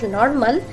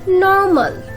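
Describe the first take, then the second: First: The R sound is pronounced. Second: The R sound is silent. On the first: The speaker calls it wrong. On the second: The speaker calls it right.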